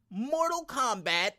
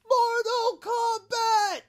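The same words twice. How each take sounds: First: The name is said in a plain, calm voice. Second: The name is shouted loudly like a dramatic announcer. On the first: The speaker calls it wrong. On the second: The speaker calls it right.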